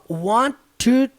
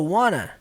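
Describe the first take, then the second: First: Both words are said fully and separately. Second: The words are run together into one reduced word. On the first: "a pronúncia dela não saiu assim" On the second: "a pronúncia dela foi com essa palavra aqui"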